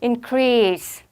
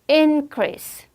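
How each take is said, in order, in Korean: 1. 강세는 두 번째 음절에 있어요. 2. 강세는 첫 번째 음절에 있어요. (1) "강세 뒤로 빼십시오" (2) "명사할 때는 앞에 강세"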